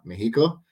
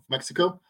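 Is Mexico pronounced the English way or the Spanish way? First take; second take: Spanish; English. First: Mexico is said with Spanish sounds. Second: Mexico is said with English sounds.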